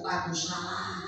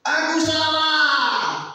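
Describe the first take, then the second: First: Broken whisper-soft confession. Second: Loud, high, very slow cry of Aku salah; wailing confession. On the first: David weeping before God, softly giving in. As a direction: let Aku salah fall away quietly. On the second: David on his knees weeping to God, wailing loud. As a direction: wail out Aku salah with high stretched words. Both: Acted. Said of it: "berlutut menangis-nangis".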